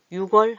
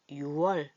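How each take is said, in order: First: 육 월 linked with a k sound as 유궐; 육 월 as yu-gwol; incorrect pronunciation. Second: 유 월 without any ㄱ sound; 유 월 said smoothly as two open syllables; correct pronunciation. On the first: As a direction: keep the ㄱ in 육 월, demonstrating the awkward form. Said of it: "육 월 하면 발음이 이상하잖아요". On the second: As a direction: drop the k, saying 유 월 as yu-wol. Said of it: "유 월로 합니다". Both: Shown as a demonstration.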